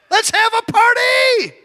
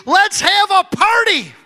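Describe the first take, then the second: First: Excited shout. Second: Excited proclamation. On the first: Preacher rallying the congregation, joyful shout. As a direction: whip the crowd up into celebration. Repeats louder, congregation cheers. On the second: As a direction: announce the party with delight. Preacher proclaims party. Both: Real, not acted.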